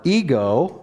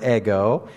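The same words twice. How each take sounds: First: "ego" with a long e, EE-go; English pronunciation. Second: "ego" with a short e, EH-go; Greek pronunciation. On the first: Preacher linking Greek to English, "ego" as EE-go. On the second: Preacher explaining the added Greek word, "ego" as EH-go. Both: Shown as a demonstration. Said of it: "word ego in our English".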